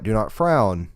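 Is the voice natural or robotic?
natural. It is said in a natural speaking voice.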